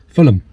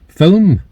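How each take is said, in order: First: An extra vowel splits it into two syllables. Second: It is said as one short syllable. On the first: "There's always a um on the end" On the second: "There you go"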